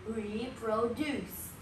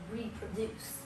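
First: Slow RE-PRO-DUCE with a full "pro"; pronunciation demo. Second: Said in the usual way. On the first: Shown as a demonstration. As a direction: sound out "reproduce" slowly, every syllable clear. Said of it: "This is how you say it". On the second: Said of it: "But the right spelling is".

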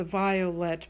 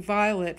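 First: "violet" fully sounded as "vi-o-let"; three-syllable violet. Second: "violet" shortened to "vi-let"; two-syllable violet. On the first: Teacher scanning iambic pentameter, "violet" as "vi-o-let". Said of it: "violet must have three syllables". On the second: Teacher showing formalists' vernacular scansion, "violet" as "vi-let". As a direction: say "violet" in two syllables, dropping the middle vowel. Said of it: "two syllables". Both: Shown as a demonstration.

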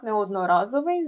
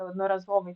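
First: Неодноразовий stressed on РА, as a mistake; wrong stress on РА. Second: Одноразовий stressed on the syllable ЗО. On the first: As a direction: say неодноРАзовий, leaning on РА. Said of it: "так, неодноразовий". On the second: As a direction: say однораЗОвий, leaning on ЗО. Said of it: "наголос на". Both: Shown as a demonstration.

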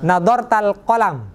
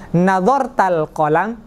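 First: "nadhartal qalam" falling at the end as a statement; "qalam" dropping to a full stop; statement intonation. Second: "nadhartal qalam" lifting at the end as a question; slow, rising question on "nadhartal qalam"; question intonation. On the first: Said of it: "Jadi antum dengan ngomong". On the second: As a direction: ask "nadhartal qalam", slowly, with a questioning rise. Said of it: "Kalau nanya gini". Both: Shown as a demonstration.

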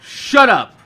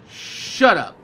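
First: Snapped shut up. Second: Said in the usual way. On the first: Real, not acted.

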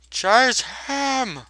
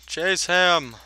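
First: Higher, urgent yelled order; urgent shout. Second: Said in the usual way. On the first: Acted. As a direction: push them to chase. Repeating the chase order.

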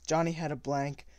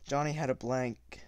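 First: Said in the usual way. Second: Whispered narration line. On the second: Shown as a demonstration. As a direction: breathe the words unvoiced.

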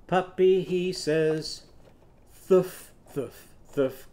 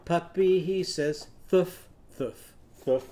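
First: Sung "Thuf, thuf, thuf" with a blown th instead of w; th puppy bark. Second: Sung "Thuf, thuf, thuf" starting on a blown th; th puppy bark. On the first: Teacher demonstrating the thing's puppy bark. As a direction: bark it as "Thuf", th pushed through the teeth. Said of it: "the little puppy song with the thick, thorny thing". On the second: Teacher repeating the th bark for the class. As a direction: bark "Thuf" with the tongue between the teeth. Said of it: "Can you do that?". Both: Shown as a demonstration.

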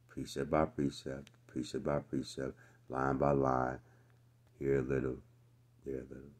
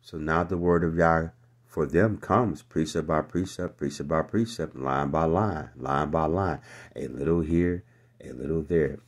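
First: Put-on quiet singsong baby chant; hushed childish recitation; mocking nursery rhyme. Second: Loud, driving preacher cadence; full-voiced sermon recital; preaching. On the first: Shown as a demonstration. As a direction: croon it like a lullaby to a toddler. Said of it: "We get treated like babies". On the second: Real, not acted. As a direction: hammer each phrase to the congregation. Preaching the verse at full force.

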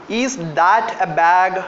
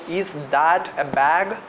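First: Slow dictation. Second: Slow dictation, repeated. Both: Shown as a demonstration. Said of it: "Can someone help me to translate?".

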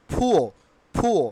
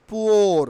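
First: "ফুয়ো" with puffed P, no R; correct pronunciation. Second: "poor" drawn out with R sounded; wrong pronunciation. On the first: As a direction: say "ফুয়ো" as "phu-o". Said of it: "Only ফুয়ো". ("ফুয়ো", শেষে র ছাড়া) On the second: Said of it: "not poor". ("poor"-এ র স্পষ্ট করে) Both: Shown as a demonstration.

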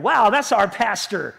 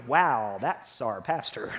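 First: Slow, admiring wow, then a proud that's our pastor; proud and happy. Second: Much lower and softer, a let-down sigh of a wow; deflated, as if he just let you down; disappointed. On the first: Church member proudly admiring their pastor, slow and happy. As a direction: say it like you're proud of him. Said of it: "you're gonna be so proud of me and so happy". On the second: Church member disappointed in their pastor, low and let down. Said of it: "there are times you're gonna look at me and go". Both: Pretend.

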